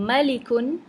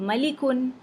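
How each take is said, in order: Both takes have the same delivery.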